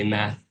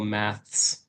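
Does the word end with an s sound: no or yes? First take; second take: no; yes. First: The word ends without an s sound. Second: The word ends with an s sound. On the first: This is the American English form. "I would say math without the S. In American English" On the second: This is the British English form. "I'm adding the S in for my uh, British English"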